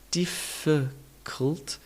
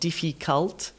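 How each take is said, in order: First: The middle vowel is reduced to a weak schwa. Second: The middle vowel is pronounced as a full vowel. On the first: The speaker calls it right. "let's add in the all-important schwa sound" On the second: The speaker calls it wrong. "not difficult"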